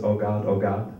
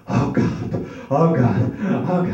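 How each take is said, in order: First: Said in the usual way. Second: Moans building from breathy to loud; mock moan, getting louder each time; father moaning. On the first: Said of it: "when my father says". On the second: Father upstairs moaning during sex, building mock moan. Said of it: "he heard my father in the back going".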